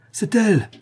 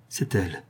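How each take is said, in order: First: An overjoyed outcry; excited cry. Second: Low, soft, stunned recognition; a hushed first realisation; stunned murmur. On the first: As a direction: cry it out in sudden joy. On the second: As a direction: breathe it out as the truth dawns. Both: A narrator's reading. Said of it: "s'écria monsieur de Saint-Rémy".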